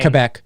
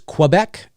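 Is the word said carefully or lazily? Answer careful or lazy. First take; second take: lazy; careful. First: The word is said in a lazy, clipped way. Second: The word is said carefully and fully. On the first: "you get lazy and whatever, and we just say" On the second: "the correct pronunciation is Quebec"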